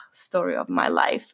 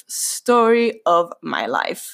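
First: Very low, dropped-voice sigh of resignation; low muttered tagline; resigned catchphrase. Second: Slow, drawn-out tagline; slowly spelled-out punchline; emphatic catchphrase. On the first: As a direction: drop it right down, wry. Wry closing catchphrase, said twice. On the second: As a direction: stretch out STORY and LIFE, wry. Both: Real, not acted.

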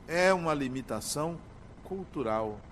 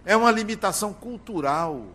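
First: Softer, falling to a hush on "cultural"; quiet repetition. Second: Preacher driving the point home; emphatic statement. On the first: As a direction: repeat it quietly, letting it sink in. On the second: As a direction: declare it with force, stressing "uma". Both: Shown as a demonstration.

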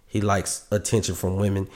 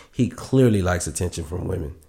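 First: Said in the usual way. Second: "clearly" leaned on as the key word; stress on clearly. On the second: Real, not acted. Host describing the podcast guest, hitting "clearly". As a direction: put the weight on "clearly".

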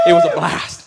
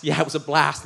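First: "It was a blast" squeaked way up high and loud; squealed high. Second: Said in the usual way. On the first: Shown as a demonstration. Comic pastor squeals about the Hawaii honeymoon, falsetto. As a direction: shriek it out in a giddy falsetto.

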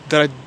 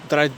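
No difference in how they are said.

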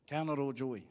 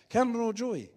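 First: Said in the usual way. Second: Higher, louder, punched refrain. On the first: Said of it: "repeated refrain". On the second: Shown as a demonstration. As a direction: hit it hard like a rallying cry. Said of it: "repeated refrain, punched".

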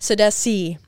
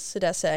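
First: Sidesi ending in a long "see"; correct pronunciation. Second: Sidese ending in "say"; mistaken pronunciation. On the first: Confirming the guest's name, Sidesi with a "see" ending. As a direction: say Sidesi loudly, last syllable "see". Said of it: "It's not". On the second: Recalling a wrong guess at the guest's name, Sidese ending in "say". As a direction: say Sidese with the last syllable as "say". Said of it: "what did I think it was?". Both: Shown as a demonstration.

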